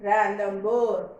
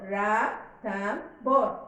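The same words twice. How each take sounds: First: Said in the usual way. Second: "ra, tham, bor" in separate beats; syllable by syllable. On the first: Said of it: "So, how to read?". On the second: Shown as a demonstration. Teacher showing how to read the word, syllable by syllable. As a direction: say ra, tham, bor with a gap after each part. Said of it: "can be divided into how many syllables".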